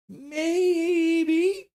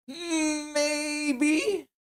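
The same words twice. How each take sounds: First: High rising squeaky maybe; silly squeak. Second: High, crying-voiced maybe; mock wail. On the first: Pretend. Streamer repeating the poll answer, high squeaky rise. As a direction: lift it up into a questioning squeak. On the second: Streamer reading the leading poll answer, mock crying. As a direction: whimper it out like a sob.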